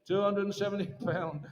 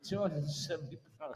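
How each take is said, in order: First: Said in the usual way. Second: Laughing through the bid call; chuckling as he repeats the price, softer; can't hold back a laugh mid-call. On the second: Real, not acted. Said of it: "we can laugh".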